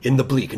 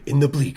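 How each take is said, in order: First: It is read in an ordinary reading voice. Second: It is read in a dramatic advertisement voice.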